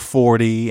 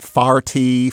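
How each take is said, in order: First: The first vowel sounds like 'or'. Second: The first vowel sounds like 'ar'. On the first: The speaker is not from St. Louis. "for 40" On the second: The speaker is from St. Louis. "the joke about farty for 40"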